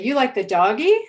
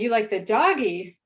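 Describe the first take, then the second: First: The pitch rises at the end. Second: The pitch rises and then falls at the end. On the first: It is a question. "I'm using those same intonation contours again" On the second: It is a statement. "I'm using those same intonation contours again"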